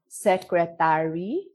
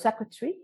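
First: Every syllable gets roughly equal stress. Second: One syllable is stressed and others are reduced. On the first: This is how Filipino speakers say it. "So each syllable, no, has an equal stress. So for example, we would say secretary" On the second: This is how native speakers say it. "instead of secretary"

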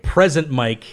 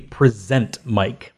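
First: The stress is on the first syllable of present. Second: The stress is on the second syllable of present. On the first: He is there, or he is a gift. The speaker calls it wrong. "is like, oh, he's present" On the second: He is the one presenting things. The speaker calls it right. "because it presents, he's presenting"

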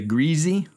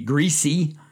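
First: Greasy is said in the local mountain way. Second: Greasy is said in the usual standard way. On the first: "that's how it's pronounced in these parts" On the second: "if you think it's supposed to be greasy"

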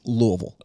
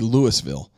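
First: It is squeezed to fewer, blurred syllables. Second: It is said with three full syllables. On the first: This is how locals say it. The speaker calls it right. "But it's Louisville" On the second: This follows the spelling. The speaker calls it wrong. "three syllables. It would be Louisville"

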